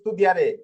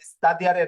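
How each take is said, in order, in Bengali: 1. 'st'-এর পরের স্বরটি 'oo'-এর মতো শোনায়। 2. 'st'-এর পরের স্বরটি 'ah'-এর মতো শোনায়। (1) "এটা হবে স্তুদিয়ারে" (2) "স্তাদিয়ারে না"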